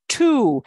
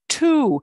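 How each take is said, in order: First: The T is released with a strong puff. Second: The T is released with a strong puff.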